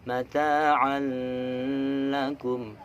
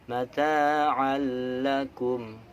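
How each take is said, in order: Both takes have the same delivery.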